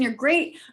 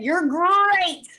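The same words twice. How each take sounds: First: It is said in a plain reading voice. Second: It is said imitating Tony the Tiger.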